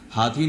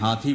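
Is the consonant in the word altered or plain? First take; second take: plain; altered. First: The consonants are pronounced plainly. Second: A consonant is altered, as if dotted. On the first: The speaker calls it right. "हाथी न बोल के" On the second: The speaker calls it wrong. "बिंदी लगा देते हैं"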